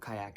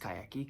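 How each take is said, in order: First: The word ends on a hard consonant sound. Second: The word ends with an added vowel sound. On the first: "It's kayak" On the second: "in Portuguese you pronounce the ... Consonants um, at the end of a word"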